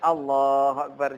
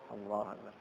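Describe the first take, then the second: First: It is said loudly. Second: It is said quietly.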